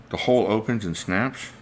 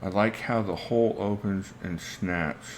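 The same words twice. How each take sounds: First: "The hole opens and snaps?" repeated with a questioning rise at the end; puzzled echo question. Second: Said in the usual way. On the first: Real, not acted. Puzzling over what he is missing, "snaps?" asked with a rising tune.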